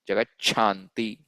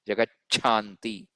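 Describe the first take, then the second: First: The middle 'ch' sound is strongly emphasized. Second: The same.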